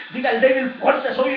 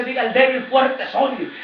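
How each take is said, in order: First: Louder repeated proclamation; repeating the declaration. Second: Louder declaration; declaring scripture. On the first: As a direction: echo it with conviction. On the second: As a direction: proclaim it boldly. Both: Shown as a demonstration. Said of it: "La palabra dice".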